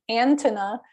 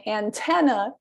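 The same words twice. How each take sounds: First: ANTENNA stressed on the first syllable, AN-tenna; misplaced stress. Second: ANTENNA stressed on the second syllable, an-TEN-na; correct stress. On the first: Teacher contrasting two stresses of antenna, first on AN. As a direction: put the weight on AN in antenna. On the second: Teacher contrasting two stresses of antenna, now on TEN. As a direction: put the weight on TEN in antenna. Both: Shown as a demonstration. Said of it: "just that difference between antenna and antenna".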